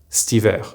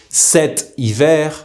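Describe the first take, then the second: First: 'stiver' as st-ee-VAIR, cet cut to 'st'; contracted form. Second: 'cet hiver' slowly with the vowel of cet sounded; careful full form. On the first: Teacher showing how cet hiver is pronounced, contracted stiver. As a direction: run 'stiver' into one word with no first vowel. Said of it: "will be pronounced stiver". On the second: Teacher giving an example season, cet hiver in full. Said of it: "will be pronounced". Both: Shown as a demonstration.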